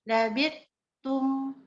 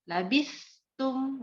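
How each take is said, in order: First: The middle consonant is a hard 't'. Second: The middle consonant is a soft, breathy 'th'. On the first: The speaker calls it wrong. "dibaca karena dari huruf ta jadi kayak gini" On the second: The speaker calls it right. "harusnya kan labis ada keluar udaranya, ada sifat lunaknya"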